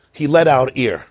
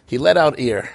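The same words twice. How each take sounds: First: Said in the usual way. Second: Laughing. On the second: Real, not acted.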